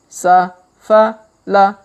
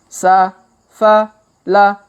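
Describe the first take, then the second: The two takes are said the same way.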